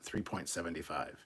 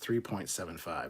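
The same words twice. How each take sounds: First: The digits after the point are read together. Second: The digits after the point are read separately. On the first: The speaker calls it wrong. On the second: The speaker calls it right. "you say each individual number"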